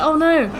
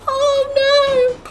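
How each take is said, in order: First: It is said in her ordinary speaking voice. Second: It is said in a put-on high-pitched voice.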